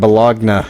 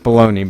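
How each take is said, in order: First: The word ends with a 'nya' sound. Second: The word ends with an 'ee' sound. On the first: "I always like to pronounce it Bologna because it looks cool" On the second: "I know that's baloney"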